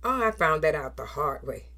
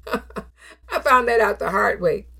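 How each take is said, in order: First: Said in the usual way. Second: Said through a rueful laugh; chuckling self-mockery. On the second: Real, not acted. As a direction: laugh at yourself as you say it.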